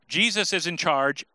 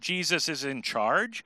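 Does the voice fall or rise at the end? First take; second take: fall; rise. First: It is an emphatic exclamation ending with a fall. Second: It is a doubtful question ending with a rise.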